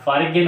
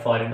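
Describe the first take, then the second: First: The g is pronounced in the middle. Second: The g is not pronounced at all. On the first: The speaker calls it wrong. "होना चाहिए मगर नहीं" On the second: The speaker calls it right. "जी खामोश है"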